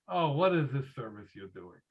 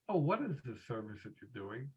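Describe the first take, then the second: First: It sounds like a mocking, belittling exclamation. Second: It sounds like a sincere, asking question. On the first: The son is belittling the service rather than asking. "The son is exclaiming, ... he's mocking it, belittling it" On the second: The son genuinely wants to know about the service. "instead of asking"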